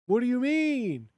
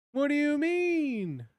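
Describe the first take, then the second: First: Higher, louder outraged question; indignant disbelief. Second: Much higher and louder, incredulous; more outraged disbelief. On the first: Streamer baffled at the AI voice, high and loud. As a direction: demand it in disbelief. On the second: Streamer even more baffled at the AI, pitched way up. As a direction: push the outrage further. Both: Real, not acted. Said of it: "Why does it keep saying swagger?".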